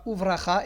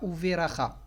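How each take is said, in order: First: The v runs straight into the r. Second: An extra vowel comes between v and r. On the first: The speaker calls it right. "on dira Uvracha" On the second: The speaker calls it wrong. "et pas Uveracha"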